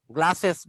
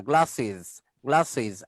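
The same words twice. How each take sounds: First: "গ্লাসেস" as "gla-ses"; wrong es ending. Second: "গ্লাসেস" lower, as "gla-siz"; iz ending. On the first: Teacher showing the error, গ্লাসেস ending in ses. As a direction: open the last vowel of "গ্লাসেস" to e. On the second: Teacher repeating the correction, গ্লাসেস ending in siz. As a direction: end "গ্লাসেস" with short i and z. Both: Shown as a demonstration. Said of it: "গ্লাসেস না".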